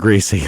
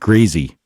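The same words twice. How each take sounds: First: Greasy is said with a standard pronunciation. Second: Greasy is said with a Southern pronunciation. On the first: This is not how the quoted man said it. "not greasy" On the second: This is how the quoted man said it. "he actually said like greasy"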